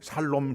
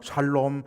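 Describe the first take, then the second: No difference in how they are said.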